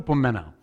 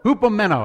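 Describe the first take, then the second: First: The word begins with no H sound. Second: The word begins with an audible H sound. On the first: The speaker calls it right. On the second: The speaker calls it wrong.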